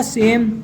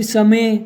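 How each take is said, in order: First: सेम as one syllable, final e silent; correct silent-e reading. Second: समय in two syllables, sa then me; wrong letter-by-letter reading. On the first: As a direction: say सेम with a long e, closing on m. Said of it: "तो क्या हो जाएगा ये". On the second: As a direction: misread same as समय, sounding the final e. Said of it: "अपन इसको ऐसे नहीं पढ़ेंगे". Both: Shown as a demonstration.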